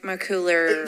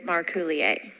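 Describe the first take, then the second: First: The name is said with an American pronunciation. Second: The name is said with a French pronunciation. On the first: "It's more Americanized" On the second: "But the French is Marcoulier"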